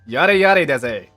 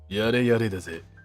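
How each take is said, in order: First: It is said in a normal voice. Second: It is said in a JoJo impression.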